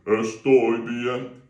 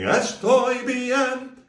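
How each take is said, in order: First: Estoy bien sung timidly, the wrong way. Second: Sung high and slow, louder; Estoy bien sung big in front of parents; sung, big and bold. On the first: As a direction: sing it shyly and held back. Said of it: "Don't feel you've got to go". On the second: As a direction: sing it out proudly. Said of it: "it feels great going". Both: Shown as a demonstration.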